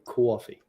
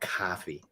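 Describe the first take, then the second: First: A w-like glide follows the first consonant. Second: No w-like glide follows the first consonant. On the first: The speaker calls it right. "there's a W in coffee" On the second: The speaker calls it wrong.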